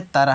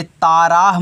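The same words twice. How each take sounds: First: Said in the usual way. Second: Long, loud aa in both syllables of ताराह; wrong reading. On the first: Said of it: "ये क्या है?". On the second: Shown as a demonstration. Teacher warns children against a misreading, ताराह with long vowels. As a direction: stretch ताराह into taa-raah. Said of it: "ताराह मत पढ़ देना".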